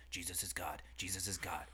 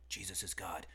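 First: Hushed whisper, chanting it; whispered mantra. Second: Said in the usual way. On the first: Retold or imitated. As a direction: breathe it like a secret mantra. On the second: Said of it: "John ... is like".

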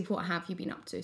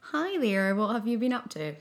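First: Said in the usual way. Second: Polite host greeting, a bit higher and louder; stiff interviewer voice. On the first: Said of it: "but actually". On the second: Pretend. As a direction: play the formal interviewer. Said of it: "It's a bit like".

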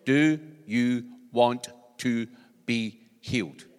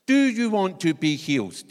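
First: Slow, simple, every word separate; Jesus asking the beggar simply, slow and clear. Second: Asked straight out, loud; Jesus putting the question firmly to the man, loud and direct. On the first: Shown as a demonstration. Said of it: "even with my Scottish accent, I think you could hear every word". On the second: Retold or imitated. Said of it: "Jesus actually says to him".

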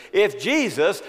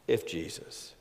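First: "if Jesus" shouted high and loud with a rising lift; proclaimed if. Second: "If Jesus" dropped low and soft, almost to himself; hushed if. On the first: Preacher crying the question to the church, ringing proclamation. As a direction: call out "if Jesus" to the back row. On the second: Preacher musing on the question, hushed aside. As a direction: breathe "If Jesus" quietly. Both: Shown as a demonstration. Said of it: "to ask if Jesus".

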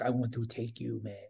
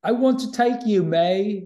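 First: Low, soft, badly faked British accent. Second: Higher, louder mock Cockney; Cockney accent. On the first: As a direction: murmur it in a poor British accent. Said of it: "That's my bad British accent". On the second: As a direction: belt it out in a put-on Cockney accent. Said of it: "No, that's my Cockney".

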